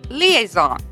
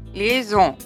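First: It is said with an English pronunciation. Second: It is said with a French pronunciation. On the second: "In French"

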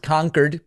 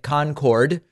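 First: The second syllable is reduced, like 'kerd'. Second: The second syllable is said fully, like 'cord'. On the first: The speaker calls it right. "but it is Concord" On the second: The speaker calls it wrong. "like the infamous supersonic jet"

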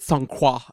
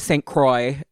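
First: The name is said with a fancy French accent. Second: The name is said with an American accent. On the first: This is how she would say it herself. "in like a very fancy accent" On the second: This is how it is said in America. "probably called Monet Saint-Croix in America"

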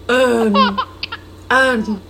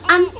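First: The vowel is a plain open ah. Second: The vowel is short, said with smiling lips. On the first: The speaker calls it wrong. "not an" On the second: The speaker calls it right. "say it with a smile on your face"

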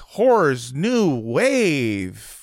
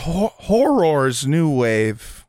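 First: The first word is slurred and sounds like whores. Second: The first word is clearly enunciated as horrors. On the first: The speaker calls it wrong. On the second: The speaker calls it right. "Thank you for enunciating"

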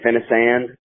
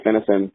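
First: The name is said slowly with every syllable enunciated. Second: The name is said quickly with the ending reduced. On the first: It is an introduction to someone new. "I'll over enunciate it the first time" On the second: It is the everyday way of saying it. "I just say Finneson, and I say it real fast"

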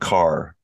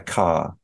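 First: The final R sound is pronounced. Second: The final R sound is dropped. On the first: "instead of car" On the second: "they don't often say the R. They say ka"

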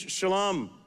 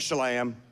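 First: The word has a native Hebrew pronunciation. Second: The word has a Southern American pronunciation. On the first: The speaker calls it right. "the correct Hebrew pronunciation is shalom" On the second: The speaker calls it wrong. "we're from the South, so we call it shalom"

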